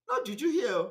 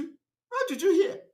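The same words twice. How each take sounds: First: Said in the usual way. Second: No juju here, rising high and slow in disbelief; scoffing denial. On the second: Shown as a demonstration. Denying juju use to his accusers, high and slow. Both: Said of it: "Which juju?".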